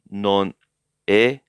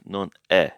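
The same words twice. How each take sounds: First: È in non è as a closed "ay". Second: È in non è as an open "eh". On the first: Teacher showing what it's not, è closed like "ay". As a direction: say non è ending on a tight "ay". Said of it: "it's, uh, the grave accent". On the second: Teacher showing the grave accent, è open like "eh". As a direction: say non è ending on a wide "eh". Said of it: "It's, uh, the grave accent". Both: Shown as a demonstration.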